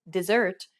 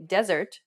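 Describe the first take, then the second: First: "dessert" stressed on the last syllable; stress on second syllable. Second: "desert" stressed on the first syllable. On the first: Teacher showing the intended word, "dessert" stressed at the end. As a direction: lean on the end of "dessert", di-ZERT. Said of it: "when you meant dessert". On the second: Teacher showing English stress confusion, "desert" stressed up front. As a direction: hit the opening of "desert", DEZ-ert. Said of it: "If you were to say". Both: Shown as a demonstration.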